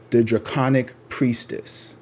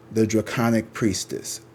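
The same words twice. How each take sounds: The two takes are said the same way.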